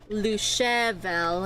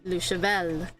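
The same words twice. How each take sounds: First: The stress falls before the final syllable. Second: The stress falls on the final syllable. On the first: The speaker calls it wrong. "not le cheval" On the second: The speaker calls it right. "the stress is vel"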